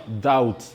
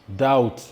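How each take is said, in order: No difference in how they are said.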